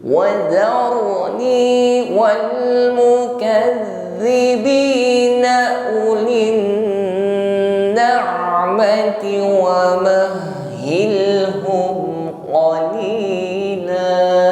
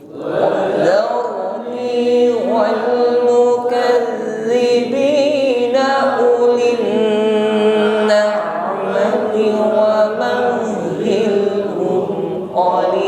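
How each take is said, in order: The two takes are said the same way.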